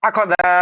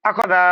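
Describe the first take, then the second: The two takes are said the same way.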